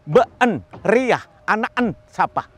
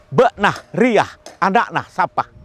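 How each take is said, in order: First: Syllables are squeezed out with a straining effort. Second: Syllables are clipped abruptly with final breathy h. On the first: This is how a western dialect sounds. "mulai seperti orang mengejan" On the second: This is how a neighbouring dialect sounds. "dialek ini akan berubah menjadi agak menyentak"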